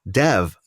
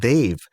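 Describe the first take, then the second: First: The name is said the common English way. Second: The name is said the Indian way. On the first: "commonly it's Dev" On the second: "for Indians, we pronounce it Dave"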